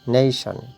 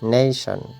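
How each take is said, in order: No difference in how they are said.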